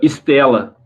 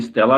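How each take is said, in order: First: The name is said in a Brazilian Portuguese way. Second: The name is said in a foreign way. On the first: This is how Brazilians call it. "Estela é como o brasileiro chama" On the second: This is the name as it is also heard, from its Belgian origin. "a gente já escutou também, tipo"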